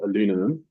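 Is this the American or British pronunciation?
American. It is said with four syllables, American style.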